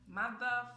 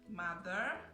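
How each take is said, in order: First: The final R sound is dropped. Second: The final R sound is clearly pronounced. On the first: The speaker calls it wrong. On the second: The speaker calls it right.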